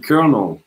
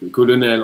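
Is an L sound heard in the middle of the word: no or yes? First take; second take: no; yes. First: There is no L sound in the middle. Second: The L in the middle is pronounced. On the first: "ça se dit colonel, colonel. Il y a pas de L au milieu en anglais" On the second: "colonel en français"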